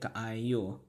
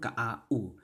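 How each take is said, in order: First: The word ends with a y glide before oo. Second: The word ends with a plain oo vowel. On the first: The letter stands for its English letter name. "They're gonna pronounce it as ka-i-u" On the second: The letter is read as the native vowel. "If I were to read it in Cebu Cebuano"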